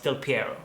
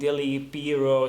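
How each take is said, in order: First: The first part is said with one syllable. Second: The first part is said with two syllables. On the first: This is the name as it really is. The speaker calls it right. "no, it's Del Piero" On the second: Someone who did not know the name guessed it. The speaker calls it wrong. "she's tried to pronounce it Dilly something"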